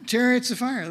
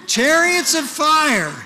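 First: Said in the usual way. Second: Chariots of fire said high, loud and slow; grand proclamation. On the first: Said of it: "Isn't it good I got to practice". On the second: Shown as a demonstration. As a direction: draw out Chariots of fire like a fanfare. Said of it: "This is much better".

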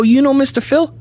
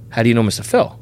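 First: Much higher, bright and eager question; eager, friendly. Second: Level, guarded question; suspicious, cold. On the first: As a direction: ask hopefully, all friendly. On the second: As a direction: turn wary and cool. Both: Retold or imitated. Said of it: "The tone changed".

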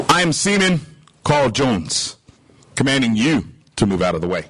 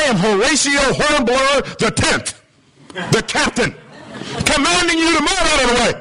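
First: Low, unruffled reply to a command; unimpressed seaman. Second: High, self-important proclamation rising into a command; pompous captain. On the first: Humble seaman answering the grand captain, calmly commanding. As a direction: answer with calm authority, settling lower. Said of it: "The signal comes back". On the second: Captain pulling rank on a stubborn signal, pompous. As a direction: announce your title and give the order, pitched way up. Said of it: "Signal goes out again". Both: Acted.

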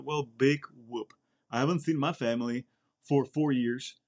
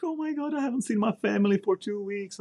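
First: Dry retort. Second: High, whiny mimicry of a homesick trainee; mock them in a high whining voice; a recruit moaning about missing his family, in a high mocking whine. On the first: Retold or imitated. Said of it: "I was like". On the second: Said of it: "Their little problems, like".

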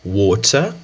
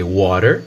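First: Water said wotɐ with a clear t; British water. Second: Water with flapped t, wɔɾer; American water. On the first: Teacher shows British water with the t. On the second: Teacher shows water before the British version. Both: Shown as a demonstration. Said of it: "você pode ver isso na própria palavra water".

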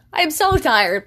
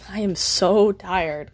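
First: "so" pitched higher and louder in "I am so tired"; louder emphatic tired. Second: Slow drawn out "so" in "I am so tired"; weary and slow. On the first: Exhausted vlogger stressing to viewers, emphatic. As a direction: push the complaint out, "so" up. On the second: Late-night theater kid to viewers, slow and tired. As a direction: sag into it, so dragged long. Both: Real, not acted.

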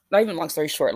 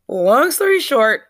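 First: Said in the usual way. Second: Slow, loud and higher, each word stretched; drawn out. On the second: Shown as a demonstration. Woman telling her followers about the casino night, slow, loud and drawn out. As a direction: stretch it out like a punchline before correcting yourself.

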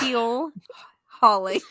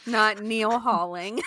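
First: "Keel Hauling" slowly, with a clear K; correct term. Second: "Neil Hauling" with an N for the K; mistaken term. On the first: Reading a listener's pirate correction to the co-host, corrective emphasis. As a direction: stretch out "Keel Hauling", starting on a K. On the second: Reading out the co-host's mistake from a listener's note, amused mispronunciation. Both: Shown as a demonstration.

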